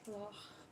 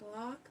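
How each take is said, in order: First: It does not end with a hard k. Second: It ends with a hard k, like 'lock'. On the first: The speaker calls it right. "That's just how it's pronounced" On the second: The speaker calls it wrong. "like lock"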